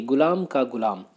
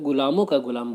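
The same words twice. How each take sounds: First: "गुलाम" ending cleanly on m; singular form. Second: "गुलामों" with a nasal -on ending; plural slip. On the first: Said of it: "कुछ लोग गुलामों का गुलाम बोल देते हैं". ("गुलाम" एकवचन, अंत में सिर्फ़ म) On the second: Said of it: "जो कि सही नहीं है". ("गुलामों" के अंत में बहुवचन वाला ओं) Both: Shown as a demonstration.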